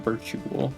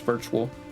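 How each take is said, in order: First: The word is said with three syllables. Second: The word is said with two syllables. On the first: The speaker calls it wrong. "not do the U like the" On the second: The speaker calls it right. "force it to be two syllables"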